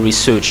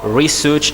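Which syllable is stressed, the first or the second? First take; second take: second; first. First: The stress is on the second syllable. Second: The stress is on the first syllable. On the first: "the second on S" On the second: "the first on R"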